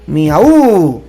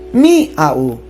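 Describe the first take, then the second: First: The stress falls on the u. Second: The stress falls on the i. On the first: "¿y si le ponemos al final?" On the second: "ponerle la mayor fuerza de voz en la i"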